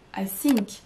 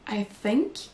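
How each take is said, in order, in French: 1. Think commence par un son S. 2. Think commence par un son TH. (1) "en remplaçant le son T H qu'on n'a pas en français par un S" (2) "l'expression I think"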